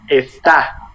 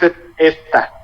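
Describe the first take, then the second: First: The stress is on the last syllable. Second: The stress is on the first syllable. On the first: "but this is está" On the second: "The tonic syllable is es"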